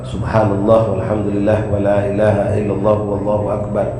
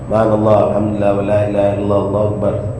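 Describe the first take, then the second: First: The word Allah is pronounced clearly and fully. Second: The word Allah is swallowed and hard to hear. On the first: The speaker calls it right. "kita bacanya yang benar" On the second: The speaker calls it wrong. "Allah tu tak terdengar"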